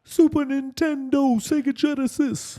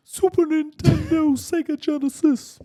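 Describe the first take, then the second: First: Much higher, slow rap parody; corrected high-pitched rapper voice after clearing the throat. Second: Much higher, slow, loud rap parody; first stab at a high-pitched rapper voice, throat not yet clear; drawn-out mock rapper squeal. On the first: Acted. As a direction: stretch it out in a mock rapper squeal. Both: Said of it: "do in your [name] voice".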